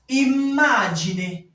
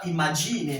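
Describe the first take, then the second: First: The m sound is held long. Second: The m sound is short and quick. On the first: The speaker calls it right. "la prononciation s'étire" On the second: The speaker calls it wrong. "On n'est pas imagine, non"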